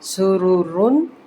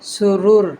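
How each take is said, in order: First: The word ends with an un sound. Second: The word ends with a bare r sound. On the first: The reading continues without stopping. "تنوین پیش ہے" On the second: The reader stops on this word. "وقف کی صورت میں سرور"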